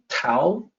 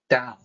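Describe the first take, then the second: First: The word begins with a T sound. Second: The word begins with a D sound. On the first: The speaker calls it wrong. "I hear people pronouncing Tao" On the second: The speaker calls it right. "it's actually Tao with a D sound, not a T sound"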